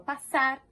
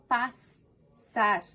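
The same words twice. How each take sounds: First: The middle s is said as one sound. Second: The middle s is said as two sounds. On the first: The speaker calls it right. "Um som apenas" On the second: The speaker calls it wrong. "Eu não falo passar"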